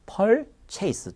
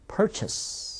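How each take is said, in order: First: "purchase" mispronounced as pol-che-i-seu; Korean-style "purchase", with a full "chase" syllable; wrong reading as chase. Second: "purchase" said as PUR-chus; English "purchase", stressed first, short "chus"; correct reduced ending. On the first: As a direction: say "purchase" high, ending like chase. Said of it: "네, 아닙니다". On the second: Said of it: "us 정도가 돼요". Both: Shown as a demonstration.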